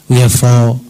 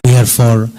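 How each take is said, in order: Both takes have the same delivery.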